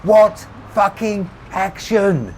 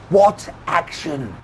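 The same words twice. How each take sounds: First: High, slow yell, word by word; top-of-voice shout. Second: High, slow, drawn-out yell. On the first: Rebecca repeating to Tommy, out of patience, shouting full voice. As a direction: bellow each word separately. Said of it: "she shouted back at the top of her voice". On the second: Rebecca demanding an answer from Tommy, yelling. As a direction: yell each word slowly. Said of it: "she yelled". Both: A narrator's reading.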